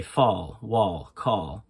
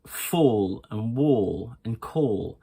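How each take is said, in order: First: American open AH in "fall, wall, call"; American accent. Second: Said in the usual way. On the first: Shown as a demonstration. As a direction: open the vowel to AH, American style. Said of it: "in America, they would say". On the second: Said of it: "Another sound is the or sound".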